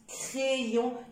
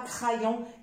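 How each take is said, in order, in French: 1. Le y se prononce comme deux sons i. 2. Le y se prononce comme un seul son i. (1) "j'insiste, crayon" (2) "et non pas crayon"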